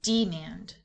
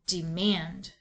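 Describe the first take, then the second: First: The stress is on the first syllable. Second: The stress is on the second syllable. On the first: The speaker calls it wrong. "accent the first syllable" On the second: The speaker calls it right. "Let's switch the accent"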